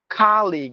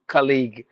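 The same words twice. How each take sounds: First: The first vowel is long. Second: The first vowel is short. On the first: "with the long sound" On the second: "we use the short sound"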